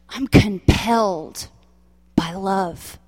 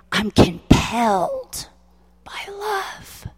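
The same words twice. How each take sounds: First: Said in the usual way. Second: Crying, then breaking into a whisper on love; tearful vow. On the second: Retold or imitated. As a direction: choke up and let the last words fall to a breath. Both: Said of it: "And I said".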